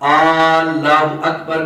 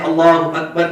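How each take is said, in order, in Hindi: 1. Allah का पहला स्वर खींचकर लंबा किया जाता है। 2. Allah का पहला स्वर छोटा है।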